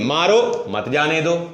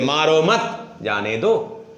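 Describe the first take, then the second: First: There is a pause right after मारो. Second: There is a pause right after मत.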